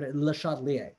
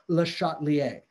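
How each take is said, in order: First: The stress falls away from the 'sha' syllable. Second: The stress falls on the 'sha' syllable. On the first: The speaker calls it wrong. "it's not Le Chatelier's or Le Chatelier" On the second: The speaker calls it right. "So the emphasis on the shot"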